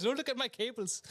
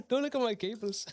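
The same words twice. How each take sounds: First: Said in the usual way. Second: Laughing through the words; sheepish laugh about messy cables. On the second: Real, not acted. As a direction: giggle it out, embarrassed. Embarrassed about cables on camera.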